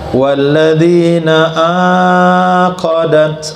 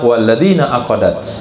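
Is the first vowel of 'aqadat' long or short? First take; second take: long; short. First: The first vowel of aqadat is held long. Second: The first vowel of aqadat is kept short. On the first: Those with whom you made a pledge of allegiance. The speaker calls it wrong. "Itu saya baca panjang" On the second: Those about whom you swore an oath. The speaker calls it right. "Jangan dibaca aqadatnya panjang, walakin ikra"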